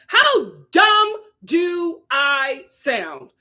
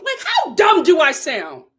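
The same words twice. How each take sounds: First: "How dumb do I sound" dragged out very slowly; slow, pointed rhetorical question; slow emphatic repeat. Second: Said in the usual way. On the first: Shown as a demonstration. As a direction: stretch each word for effect.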